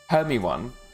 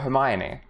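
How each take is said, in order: First: The name is read as spelled, ending in 'own'. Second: The name has four syllables, ending in 'ee'. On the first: The speaker calls it wrong. "it's like the same as doing like Hermione" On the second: The speaker calls it right. "for Hermione"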